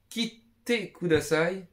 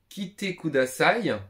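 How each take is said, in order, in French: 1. Le son t est tenu longtemps et doublé. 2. Le son t est court et simple. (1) "là ça change le sens de fou" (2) "juste la consonne que tu ne répètes pas"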